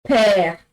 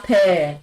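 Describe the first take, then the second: First: Père repeated a bit louder, open è; French père. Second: Père with open è; French père. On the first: Teacher repeating père louder for the class. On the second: Teacher modelling père for students. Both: Shown as a demonstration. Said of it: "We have père".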